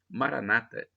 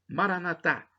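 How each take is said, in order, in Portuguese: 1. A tônica está na penúltima sílaba. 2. A tônica está na última sílaba. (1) "como dizem os protestantes, os evangélicos, com a tônica na penúltima sílaba" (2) "eu digo como católico, com a tônica na última sílaba"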